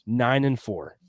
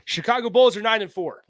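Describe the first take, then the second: First: It is said at normal, quieter volume. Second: It is said loudly.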